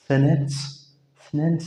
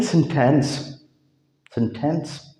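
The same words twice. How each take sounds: First: "सेनेंस" with N in place of the T; American "सेनेंस", no T burst; American silent T. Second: Said in the usual way. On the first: Shown as a demonstration. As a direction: drop the middle T, saying "सेनेंस". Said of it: "इस टी को नहीं पढ़ते". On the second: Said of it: "हम इसको कहते हैं".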